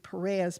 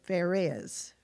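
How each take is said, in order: First: The name begins with a P sound. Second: The name begins with an F sound. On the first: "I would think it would be Perez" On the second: "they actually pronounce it Pharez with an F"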